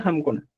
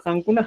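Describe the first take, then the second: First: "hamkuna" with lips closed on M; M before K. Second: "hankuna" with an N closing the first syllable; N before K. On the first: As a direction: say "hamkuna" with "ham" first. ("hamkuna" con M antes de la K) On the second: ("hankuna" con N antes de la K) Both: Shown as a demonstration. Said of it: "en vez de hankuna".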